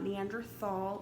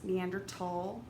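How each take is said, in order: First: The last syllable begins with a th sound. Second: The last syllable begins with a plain t sound. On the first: The speaker calls it wrong. "it's not Neanderthal" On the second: The speaker calls it right. "it's Neanderthal"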